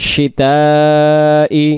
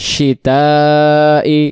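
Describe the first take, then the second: The two takes are said the same way.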